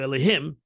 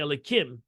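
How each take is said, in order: First: The middle consonant is an h sound. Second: The middle consonant is a k sound. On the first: It is the holy name itself. "I can say it now just to teach you" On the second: The name is altered for ordinary talk. "you change the hey to a kuf"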